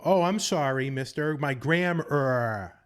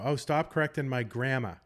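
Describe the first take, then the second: First: Higher, louder mock Bostonian straining for a hard R; hammed-up Boston sarcasm, "grammar" stretched into "gram-urr-ah"; overcorrected Boston accent. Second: Put-on Boston accent with "grammar" ending in "gramma"; lightly acted Bostonian protest, R dropped from grammar. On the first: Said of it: "overcorrect it in comical ways". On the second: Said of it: "self-conscious about their Boston accent".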